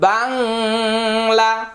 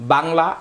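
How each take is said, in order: First: The nasal sound is drawn out and held long. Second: The nasal sound is short and ordinary. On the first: The speaker calls it wrong. "বাংলাতে তো আমরা এইভাবে বলি না" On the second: The speaker calls it right. "এভাবে বলি"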